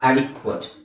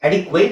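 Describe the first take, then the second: First: The last syllable has a short, reduced vowel. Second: The last syllable has a full 'ate' vowel. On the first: The speaker calls it right. "ಅಡಿಕ್ವಟ್ adequate" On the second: The speaker calls it wrong. "ಈ ಅಡಿಕ್ವೇಟ್ ಅಲ್ಲ"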